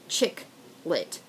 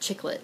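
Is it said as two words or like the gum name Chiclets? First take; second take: two words; Chiclets. First: It is said as two separate words. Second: It is run together like one word, Chiclets. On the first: It names a genre of light women's fiction. The speaker calls it right. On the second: It names a brand of chewing gum. The speaker calls it wrong.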